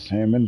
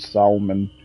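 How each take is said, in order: First: The L in the word is silent. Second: The L in the word is pronounced.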